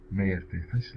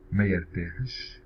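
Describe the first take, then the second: First: Said in the usual way. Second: Careful slow demo of ما يرتاحش; ما يرتاحش said slowly and distinctly; slow model. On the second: Shown as a demonstration. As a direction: draw out ما يرتاحش for the learner. Teacher models example slowly.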